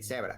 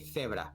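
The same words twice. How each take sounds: First: The first sound is a hissing s. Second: The first sound is a lisped th. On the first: "In Latin American Spanish ... it sounds like a ... C E or an S E" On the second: "but in Spain, you say zebra ... you have to be the"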